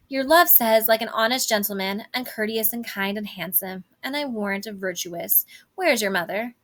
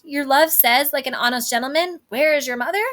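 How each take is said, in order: First: Nurse stalling. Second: Higher, louder incredulous echo; mock quoting. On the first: Acted. Nurse evading Juliet's question about her love, lightly acted stalling. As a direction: recite the compliments, then casually change the subject. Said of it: "she asks where Juliet's mother is". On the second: Juliet quoting the nurse's odd reply back, mock incredulous. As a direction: throw the words back with a rising, baffled question. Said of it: "How oddly thou repliest".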